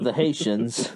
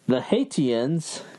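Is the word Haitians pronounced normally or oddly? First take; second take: normally; oddly. First: The word Haitians is pronounced normally. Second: The word Haitians is pronounced oddly. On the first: The speaker calls it right. "instead of" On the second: The speaker calls it wrong. "She can't even say Haitians"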